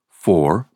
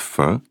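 First: The word is said with its full vowel. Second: The word is said short with a reduced vowel.

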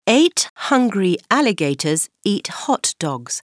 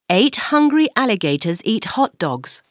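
First: It is said at a normal speed. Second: It is said faster.

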